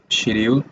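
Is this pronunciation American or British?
British. It is said with a British pronunciation. "British people say schedule"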